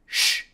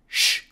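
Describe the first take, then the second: No difference in how they are said.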